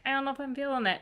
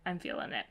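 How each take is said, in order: First: High-pitched wavering quote; unsure. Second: Softer, settled quote; won over. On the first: Reader reenacting her swing back on the book, unsure. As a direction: lift the voice into doubt. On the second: Reader reenacting her final verdict on the book, won over. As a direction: let it land quietly, decided. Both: Retold or imitated. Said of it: "kind of a roller coaster".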